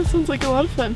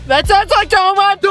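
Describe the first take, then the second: First: It is said with low energy. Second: It is said with high energy.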